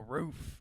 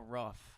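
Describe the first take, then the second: First: The vowel is a long 'ooh' sound. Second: The vowel is a short 'uh' sound. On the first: The speaker calls it right. "Ooh is an O" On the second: The speaker calls it wrong. "Uh is a U"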